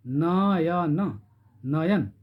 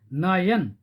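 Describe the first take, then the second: First: नयन drawn out very slowly, each syllable held; stretched slow demo. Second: Said in the usual way. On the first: Shown as a demonstration. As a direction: stretch नयन so the hidden अ is heard. (नयन को बहुत धीरे खींचकर बोलना) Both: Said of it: "नयन, न में अ छिपा हुआ है".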